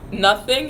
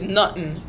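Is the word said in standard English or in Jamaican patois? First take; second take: English; patois. First: It is said as standard English 'nothing'. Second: It is said as patois 'nutten'. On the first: "how you say nothing" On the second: "N U T T E N"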